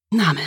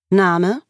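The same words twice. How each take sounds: First: Absent echo, falling at the end; vague. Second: Higher, briskly rising query; polite question. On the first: Patient blanking at the receptionist's question, vague. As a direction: repeat it vaguely, without a question. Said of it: "sagte ich vage". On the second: Receptionist taking a patient's details, politely asking. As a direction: ask it politely, lifting at the end. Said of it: "fragte die Rezeptionistin mich höflich". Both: A narrator's reading.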